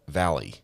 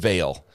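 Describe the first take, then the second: First: The name is said as two syllables, like 'valley'. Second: The name is said as one syllable, like 'vale'. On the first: The speaker calls it right. "pronounced Valley" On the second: The speaker calls it wrong. "I was going Vale"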